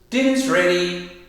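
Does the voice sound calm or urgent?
calm. It is said in a calm, relaxed tone. There is no hurry to come. "you kind of know, all right, dinner's ready"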